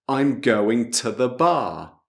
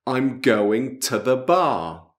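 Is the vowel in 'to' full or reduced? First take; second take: reduced; reduced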